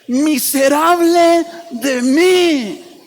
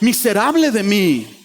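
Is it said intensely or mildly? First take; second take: intensely; mildly. First: It is said intensely, with strong frustration. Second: It is said mildly, with less intensity.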